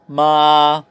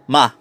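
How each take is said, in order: First: The pitch starts high and stays level. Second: The pitch starts high and falls down. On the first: It means mother. "first tone ... pitch mo starts high and stays high" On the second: It means to scold. "fourth tone ... pitch starts high and falls down"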